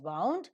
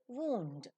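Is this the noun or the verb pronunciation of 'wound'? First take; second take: verb; noun. First: It is the pronunciation used for the verb. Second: It is the pronunciation used for the noun. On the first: It is the past tense of wind. "So as a verb, it is pronounced as wound" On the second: It means an injury. "As a noun, it is pronounced as wound"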